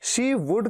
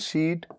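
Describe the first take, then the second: First: Two full words, she and would. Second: One contracted syllable, she'd. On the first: "शी वुड का contraction" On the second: "contraction शीड"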